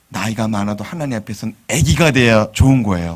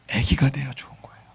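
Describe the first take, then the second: First: Said in the usual way. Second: 애기가 돼야 좋은 거예요 whispered softly; whispered echo. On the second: Shown as a demonstration. Pastor echoing the point to the congregation in a whisper. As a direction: repeat it in a whisper. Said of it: "나이가 많아도 ... 애기가 돼야".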